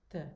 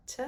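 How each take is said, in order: First: "th" tongue on the teeth, no puff of air; soft dental t. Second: "T" with a puff of air, American style; breathy aspirated t. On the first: Teacher showing the right, Italian dental T. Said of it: "but th". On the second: Teacher showing the wrong, American T. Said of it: "Not T". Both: Shown as a demonstration.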